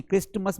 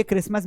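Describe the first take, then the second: First: "क्रिस्टमस" with an audible t; T wrongly sounded. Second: "क्रिसमस" with no t sound; silent T. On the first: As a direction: demonstrate the mistake "क्रिस्टमस", sounding the T. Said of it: "मत पढ़ना". ("क्रिस्टमस" में टी बोलकर ग़लत उच्चारण) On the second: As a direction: say "क्रिसमस", leaving out the T. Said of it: "टी आता है इसको हम पढ़ते नहीं". ("क्रिसमस" में टी silent) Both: Shown as a demonstration.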